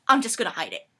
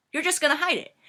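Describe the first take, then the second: First: Offhand but loud reassurance; matter-of-fact plan, usual pitch; confident assurance. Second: High, loud disbelieving repeat; acted-out incredulity; incredulous echo. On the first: Acted. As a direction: brush the worry aside. Friend's casual plan. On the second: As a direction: throw it back in disbelief. Incredulous echo of friend's plan.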